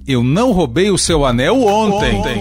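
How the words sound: The stress falls on the word ontem. It may have been stolen on another day. "ainda posso dar ênfase no advérbio de tempo"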